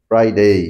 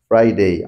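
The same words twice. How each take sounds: Both takes have the same delivery.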